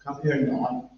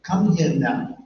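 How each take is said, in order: First: Parent's command in a Belfast accent. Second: Put-on parent calling a child in a London accent. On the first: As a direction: order a kid over in Belfast tones. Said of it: "Send him the Belfast accent". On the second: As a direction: order a kid over in a London accent. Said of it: "in a London accent". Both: Shown as a demonstration.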